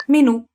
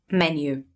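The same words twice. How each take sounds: First: MENÙ with the stress on the final NÙ, higher and louder; Italian stress on final syllable. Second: Menu said MEN-yoo, stress on the first syllable; English stress on first syllable. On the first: Teacher models the Italian word for learners, stress on NÙ in Menù. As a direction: say Menù as me-NÙ, punching the end. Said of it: "it just changed the accent". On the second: Teacher translates for learners, English Menu stressed on MEN. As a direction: put the accent on MEN in Menu. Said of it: "in English you say menu". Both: Shown as a demonstration.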